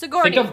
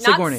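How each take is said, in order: First: The first syllable Sig is said lightly. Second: The first syllable Sig is strongly emphasized. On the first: The speaker calls it right. "Just Sigourney" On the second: The speaker calls it wrong. "not Sigourney. Sig. Stop saying the Sig so much"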